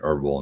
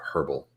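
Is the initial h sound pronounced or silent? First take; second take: silent; pronounced. First: The word starts without an h sound. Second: The word starts with an h sound. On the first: This is the American way to say it. "that's the American pronunciation" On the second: This is the British way to say it. "the British pronounce it herbal"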